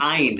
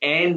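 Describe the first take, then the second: First: The vowel is an ai diphthong. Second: The vowel is a plain e sound. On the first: The speaker calls it right. "आइन है" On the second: The speaker calls it wrong. "एन नहीं"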